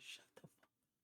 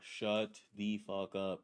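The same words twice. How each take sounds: First: It is said at a normal, quieter volume. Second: It is said louder, with more force.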